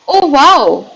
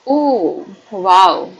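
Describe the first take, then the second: First: It sounds suddenly and strongly amazed. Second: It sounds mildly shocked, not excited. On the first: The speaker is suddenly and greatly astonished. "आप बहुत ज्यादा जब shocked हो, suddenly" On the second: The speaker is somewhat shocked but not excited. "You are not excited but you are shocked"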